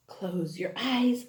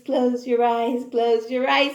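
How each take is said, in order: First: Low, soft, slow "close your eyes"; soft hush. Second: Said in the usual way. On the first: Shown as a demonstration. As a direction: lull them gently.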